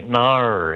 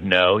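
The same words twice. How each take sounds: First: Aussie "nar", vowel drawn out into an r; Australian accent. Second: Said in the usual way. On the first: Shown as a demonstration. American showing how Australians say no, drawn-out Aussie "nar". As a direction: stretch "nar" long in an exaggerated Australian accent. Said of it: "you say nar". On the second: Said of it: "instead of no".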